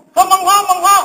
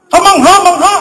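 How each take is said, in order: First: Amazed exclamation. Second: High, loud amazed cry; amazed exclamation. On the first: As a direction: voice pitched high in wonder. (mataas na tono, namamangha) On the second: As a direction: exclaim it in wonder, voice jumping up. (mataas na boses sa pagkamangha) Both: Retold or imitated. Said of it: "Napataas yung tono ng boses niya".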